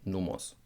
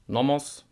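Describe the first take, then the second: First: "nomos" with closed German o, falling. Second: "nomos" with an English short o, rising; wrong reading. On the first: Teacher modelling the German "nomos". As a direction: say "nomos" with pure o. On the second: Teacher showing the mistaken "nomos". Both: Shown as a demonstration.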